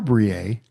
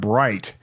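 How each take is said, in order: First: It is said the French way, like 'bree'. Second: It is said like the English word 'bright'. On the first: "go French with it and say Brie" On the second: "we're going to call it Bright"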